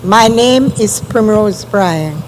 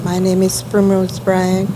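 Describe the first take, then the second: First: Speaking up. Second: Soft, low-level introduction; barely audible. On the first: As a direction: raise your voice so it carries. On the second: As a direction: say it too softly to carry. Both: Real, not acted. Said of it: "Can you speak up, please?".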